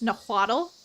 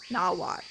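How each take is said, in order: First: The word ends with an audible L sound. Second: The word ends without any L sound. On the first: "in this game they'll say the language is Nahuatl" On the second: "not saying the L"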